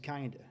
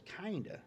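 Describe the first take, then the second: First: Said in the usual way. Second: Kinda? thrown back higher, in disbelief; incredulous echo. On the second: Retold or imitated. Leonard echoing the racer's weak answer, incredulous. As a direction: echo Kinda as if it's absurd. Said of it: "Is that, like, kinda pregnant?".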